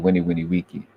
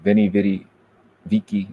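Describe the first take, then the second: First: Each word starts with a W sound. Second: Each word starts with a V sound. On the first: The speaker calls it right. "It's actually a W" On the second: The speaker calls it wrong. "there's no V sound in Latin"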